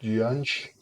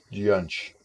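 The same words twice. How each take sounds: First: "Gianj" lifted in a rising question; questioning pronunciation. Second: "Gianj" settling on a falling tune; falling pronunciation. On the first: Streamer checking a baby's name, "Gianj" as rising question. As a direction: try out "Gianj", higher and rising, unsure. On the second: Streamer repeating a baby's name, "Gianj" with falling tune. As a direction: say "Gianj" as a statement, dropping at the end. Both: Real, not acted. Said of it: "Did I pronounce that correctly?".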